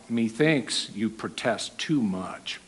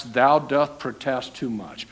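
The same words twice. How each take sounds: First: Soft, slow, knowing remark; knowing aside. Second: Said in the usual way. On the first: Shown as a demonstration. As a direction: say it quietly and slowly, knowing. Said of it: "This is how we use it".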